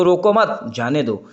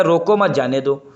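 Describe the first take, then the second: First: "रोको मत" as one unit, break, then "जाने दो"; pause after मत. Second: "रोको मत जाने दो" run together without a break; no comma pause. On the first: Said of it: "रोको मत, इसको". ("मत" के बाद विराम) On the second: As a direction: read "रोको मत जाने दो" straight through, unpunctuated. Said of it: "और वैसे क्या हो जाएगा". ("रोको मत जाने दो" बिना रुके) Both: Shown as a demonstration.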